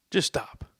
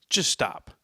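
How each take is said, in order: First: A breathy, pleading whisper; hushed, weary just stop; whispered plea. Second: Said in the usual way. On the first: Retold or imitated. Fed up with the Chiefs.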